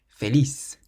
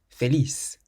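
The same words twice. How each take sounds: Both takes have the same delivery.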